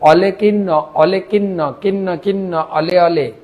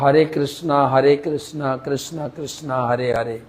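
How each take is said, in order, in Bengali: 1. R ধ্বনিগুলো L হিসেবে উচ্চারিত হয়। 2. R ধ্বনিগুলো R হিসেবে উচ্চারিত হয়। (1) "র কে ল উচ্চারণ করে" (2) "আমরা যেরকম"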